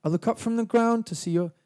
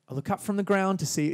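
First: English accent. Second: Lyric line in a broad Australian accent, a bit brutal; Australian accent, harsher and plainer. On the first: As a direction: lift it gently, English style. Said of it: "sounds a little bit English". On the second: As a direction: say it flat and blunt, Aussie style. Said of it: "be like, Australian". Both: Shown as a demonstration.

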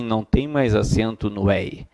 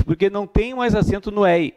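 First: Lower, sceptical repeat of the claim "não tem mais acento no ei"; correcting tone. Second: Lightly voiced student repeating the myth; mock common excuse. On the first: Shown as a demonstration. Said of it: "Não é bem assim". (repetindo "não tem mais acento no ei" mais grave, em tom de dúvida) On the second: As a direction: quote the common claim a bit higher. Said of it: "a justificativa é a seguinte". (imitando o aluno que repete o mito, leve)

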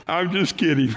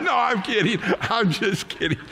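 First: Said in the usual way. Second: Laughing. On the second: Real, not acted. Preacher laughing at own joke.

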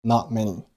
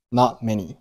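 First: Not many with the t of not held silent; unreleased t in not. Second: Not closed silently before many; unreleased t in not. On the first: Teacher demonstrating lost plosion in not. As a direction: stop on not with no t burst. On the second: Teacher repeating lost plosion in not for students. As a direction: swallow the t of not. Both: Shown as a demonstration. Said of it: "Not结尾的t同样失去爆破".

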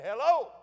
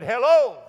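First: High-pitched copycat call; mocking echo reply. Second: High, loud call into the woods; boy calling out. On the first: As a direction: parrot the call back as an echo. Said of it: "He said". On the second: Retold or imitated. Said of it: "I said".

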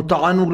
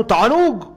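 First: Said in the usual way. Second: Delighted. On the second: Retold or imitated.

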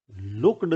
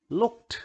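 First: "लुक्ड" mispronounced with a voiced d ending; wrong -ed as "d". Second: "लुक्ड" as "lukt", high and rising. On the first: Teacher shows what looked is not, ending voiced as "d". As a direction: say "लुक्ड" as "look-d", not "lukt". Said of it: "लुक्ड नहीं होता है". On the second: Teacher models looked correctly, -ed pronounced "t". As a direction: say "लुक्ड" in one syllable ending in t. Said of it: "ट बोला जा रहा है आखिरी". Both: Shown as a demonstration.

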